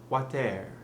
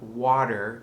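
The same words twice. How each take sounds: First: The ending sounds more like 'air'. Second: The ending is an English R sound. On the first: The speaker calls it right. "becomes more like air" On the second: The speaker calls it wrong. "So it's not water"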